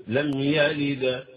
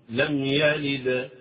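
No difference in how they are said.

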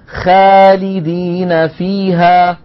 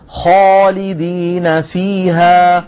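First: The first consonant is light, with a thin sound. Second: The first consonant is heavy, with a full, deep sound. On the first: The speaker calls it wrong. "ولا نقول" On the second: The speaker calls it right. "نقول"

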